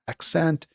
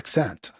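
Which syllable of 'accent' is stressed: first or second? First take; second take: first; second. First: The stress is on the first syllable. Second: The stress is on the second syllable. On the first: "do you accent the first syllable" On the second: "or the second?"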